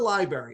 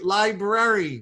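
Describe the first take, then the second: First: The word is said sloppily, not fully enunciated. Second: The word is said carefully, every sound enunciated. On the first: The speaker calls it wrong. "people saying library is one of my uh, bugaboos" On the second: The speaker calls it right. "Let's enunciate"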